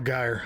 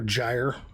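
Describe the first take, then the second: First: The name is pronounced differently from gyro. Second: The name is pronounced like the word gyro. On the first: This is how the speaker chooses to say the name. "I'm gonna call her Gyre" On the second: This is how others say the name. "they're calling her Gyre, like gyro"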